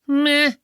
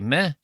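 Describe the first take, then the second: First: The word is said with heavy emphasis. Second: The word is said plainly, without emphasis.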